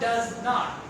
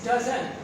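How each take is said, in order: First: It is said as two separate full words. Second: It is said as one contracted word. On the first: The speaker calls it wrong. "You cannot use in uh, speaking" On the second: The speaker calls it right. "you must speak as"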